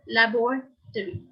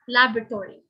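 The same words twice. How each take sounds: First: It is said in a British accent. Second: It is said in a North American accent. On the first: "for the British English speakers, the same word is pronounced in four syllables" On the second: "The North Americans tend to pronounce this word in three syllables"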